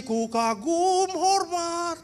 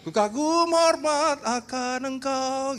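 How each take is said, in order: First: Slow sung hymn line, pitched up. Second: Slow sung hymn line. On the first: Preacher singing the hymn line slowly and high to his congregation. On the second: Preacher singing the hymn line slowly to his congregation. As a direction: sing it slowly like in worship. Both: Retold or imitated. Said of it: "Saudara nyanyi".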